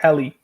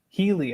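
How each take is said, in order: First: The first syllable sounds like 'hell'. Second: The first syllable does not sound like 'hell'. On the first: The speaker calls it right. "it's Helly. Like helicopter" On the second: The speaker calls it wrong. "I said it right. No"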